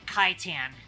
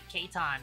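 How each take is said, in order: First: The first syllable sounds like Kai. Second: The first syllable sounds like Kate. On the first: The speaker calls it wrong. "they pronounce it Kaitan" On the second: The speaker calls it right. "it's supposed to be like Keitan"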